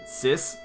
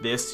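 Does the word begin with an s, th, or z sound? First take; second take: s; th. First: The word begins with an s sound. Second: The word begins with a th sound. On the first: "you might say sis" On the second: "instead of saying like this"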